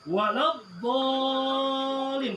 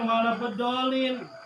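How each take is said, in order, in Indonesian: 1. Vokal setelah bunyi d itu dipanjangkan. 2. Vokal setelah bunyi d itu pendek. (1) "Dibedolin mau ditarik ya. Waladdallin pantas" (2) "Jangan wala bedolin"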